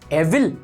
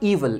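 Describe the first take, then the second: First: The first vowel is a short 'e'. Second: The first vowel is a long 'ee'. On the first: The speaker calls it wrong. "No" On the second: The speaker calls it right. "ये पढ़ा जाता है ईवल"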